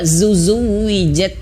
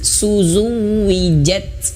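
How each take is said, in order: First: Both sibilant sounds are a voiced z. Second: Both sibilant sounds are a voiceless s.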